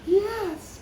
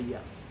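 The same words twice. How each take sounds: First: It is said with an exaggerated, lively tone. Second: It is said in a plain, normal tone. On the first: "at first we're like" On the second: "Try to say yes in normal tone of voice"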